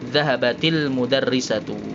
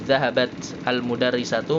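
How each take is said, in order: First: The words are linked with an 'i' vowel. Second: The two words are said separately, without linking. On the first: The speaker calls it right. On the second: The speaker calls it wrong.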